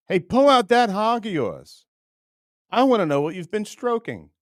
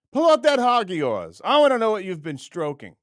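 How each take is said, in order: First: High, loud taunting voice; mock macho challenge. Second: Much higher, louder taunting call; mock macho challenge again. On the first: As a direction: dare him loudly in a mock voice. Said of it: "I just wanna say to him". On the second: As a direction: shout the dare in a mock voice. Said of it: "You gotta know what to do with it".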